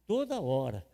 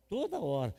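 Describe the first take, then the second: No difference in how they are said.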